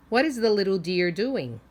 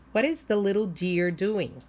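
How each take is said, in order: Both takes have the same delivery.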